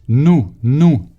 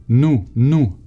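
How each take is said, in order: No difference in how they are said.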